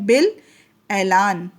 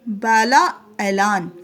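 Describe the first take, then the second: First: The written alif is silent, no long vowel. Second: The written alif is sounded as a long vowel. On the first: The speaker calls it right. "लेकिन इसको पढ़ा क्या जाता है" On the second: The speaker calls it wrong. "ये लिखने में क्या है"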